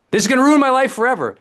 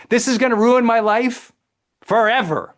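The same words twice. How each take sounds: First: Higher, louder and fast mock panic; hammed-up melodrama, even bigger; over-the-top catastrophizing. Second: Hammed-up doom over a small problem; dramatic catastrophizing. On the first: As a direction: blurt it out in a rush of doom. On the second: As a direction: wail it like the end of the world. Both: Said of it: "we use dramatic language".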